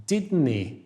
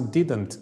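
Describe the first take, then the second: First: "didn't" as "didni", t dropped; "didn't" ending with no t; Scottish didn't. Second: "didn't" with a clear final t; "didn't" said crisply, t sounded. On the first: Teacher shows the Scottish "didn't" with the t dropped. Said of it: "neće reći jasno didn't, već". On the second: Teacher shows the standard "didn't" with a clear t. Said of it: "neće reći jasno didn't". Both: Shown as a demonstration.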